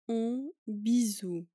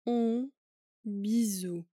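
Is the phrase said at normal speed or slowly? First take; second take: normal; slowly. First: The phrase is said at normal speed. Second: The phrase is said slowly.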